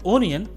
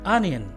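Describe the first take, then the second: First: The first vowel sounds like 'oh'. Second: The first vowel sounds like 'ah'. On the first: The speaker calls it wrong. "जो कि गलत है" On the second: The speaker calls it right. "इसका सही pronunciation है"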